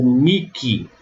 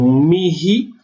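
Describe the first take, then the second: First: "miki" as mee-kee, slowly; slow "miki", hard k replacing h. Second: "mihi" as mee-hee, rising; higher "mihi", h puffed, not k; aspirated h. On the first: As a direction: say "miki" with a k in the middle. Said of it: "são duas exceções". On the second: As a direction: say "mihi" with a breathed h. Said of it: "pronunciar dessas duas formas". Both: Shown as a demonstration.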